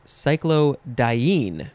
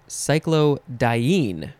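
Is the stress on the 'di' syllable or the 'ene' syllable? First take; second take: ene; ene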